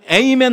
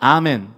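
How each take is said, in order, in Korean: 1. 이 단어는 'ay' 소리로 시작해요. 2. 이 단어는 'ah' 소리로 시작해요. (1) "영어권 사람들은 에이멘이라고 말하는데" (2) "우리로 말하면"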